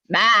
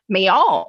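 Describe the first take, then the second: First: It is said clipped, in a New England accent. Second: It is said with a drawn-out Southern drawl.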